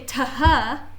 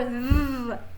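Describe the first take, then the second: First: The letters are sounded as two separate sounds. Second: The letters are blended into one single sound. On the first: The speaker calls it wrong. "we don't say ta-ha" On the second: The speaker calls it right. "we say or th"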